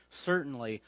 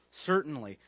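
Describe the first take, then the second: No difference in how they are said.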